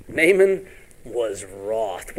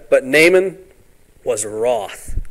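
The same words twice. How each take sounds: First: Very slow, each word weighed; preacher slowing right down to let it land; slow and deliberate. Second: Said in the usual way. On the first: Shown as a demonstration. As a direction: drag out the words for emphasis. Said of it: "What does that mean". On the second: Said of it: "repeats slowly".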